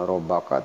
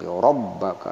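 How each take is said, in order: First: The b sound is short, not doubled. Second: The b sound is held and doubled. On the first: The speaker calls it wrong. "bukan rabbaka" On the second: The speaker calls it right. "tapi rabbaka ada ditahan, ada tasdid"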